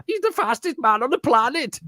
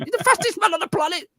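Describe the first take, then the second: First: High, hammed-up German accent. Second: Much higher mock German accent. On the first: Repeating De Bruyne's line in a mock German accent. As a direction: overdo the German accent again. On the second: Retelling De Bruyne's line in a mock German accent. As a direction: ham up a German accent for laughs. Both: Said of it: "But in a German accent".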